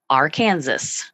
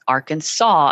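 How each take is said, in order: First: The word is pronounced just as it is spelled. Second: The word ends in an aw sound. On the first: The speaker calls it wrong. "like it looks like it's spelled, but that's not right" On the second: The speaker calls it right. "as if it ends with a W sound, a A W"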